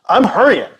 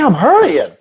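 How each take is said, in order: First: It sounds impatient and annoyed. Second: It sounds light and friendly. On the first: Get out of my way. "like get out of my way" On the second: Just letting you know I'm going fast.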